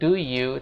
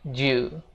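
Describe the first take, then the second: First: Both words are pronounced fully and separately. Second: The two words merge into one syllable. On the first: The speaker calls it wrong. "jangan lagi bilang do you" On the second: The speaker calls it right. "tapi bilangnya ju"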